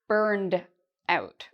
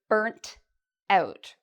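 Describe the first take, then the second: First: The first word ends with a d sound. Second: The first word ends with a t sound. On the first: "an American pronunciation, we'd actually say burned out with a d sound at the end" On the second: "with a t sound at the end. This is a very British or Canadian pronunciation"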